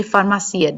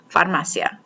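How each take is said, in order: First: "farmacia" with the stress misplaced, the way learners tend to say it; wrong stress. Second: "Farmacia" with the stress put on the i, far-ma-CI-a; correct stress. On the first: Teacher showing students the common wrong stress on "farmacia". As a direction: demonstrate the mistaken "farmacia". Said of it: "Don't do it". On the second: Teacher modelling for students the correct stress on "Farmacia". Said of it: "Put the emphasis on that one". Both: Shown as a demonstration.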